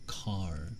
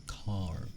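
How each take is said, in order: No difference in how they are said.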